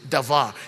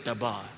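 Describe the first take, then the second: First: The middle consonant is a v sound. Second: The middle consonant is a b sound. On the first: The speaker calls it right. "in the true pronunciation, davar" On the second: The speaker calls it wrong. "the Hebrew word there for word is dabar"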